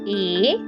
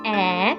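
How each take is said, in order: First: The vowel sound is long, like the letter name. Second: The vowel sound is short and clipped. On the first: "Let's say the long vowel sounds first" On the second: "let's say the short vowel sounds"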